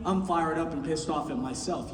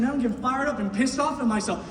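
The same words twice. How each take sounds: First: Much lower and softer, subdued; admitting to the crowd, dropped low and soft; quiet admission. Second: Fired-up self-talk. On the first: Real, not acted. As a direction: say it under your breath. Quiet confession after shouting. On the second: Retold or imitated. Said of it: "I'm sitting there and I'm saying".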